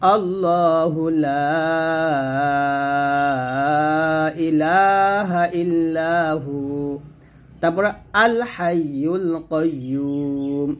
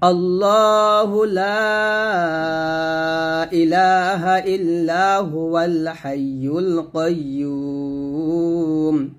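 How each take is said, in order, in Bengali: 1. illahu-র পরে বাকি অংশের আগে একটি থামা আছে। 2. বাক্যাংশগুলো বিরতি ছাড়াই একসাথে পড়া হয়। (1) "আর যদি থামি, থামলে এরকম হবে" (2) "দুইটা বাক্য একসাথে মিলাই পড়ি, তাহলে এরকম পড়ব"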